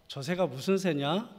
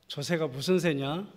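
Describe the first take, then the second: No difference in how they are said.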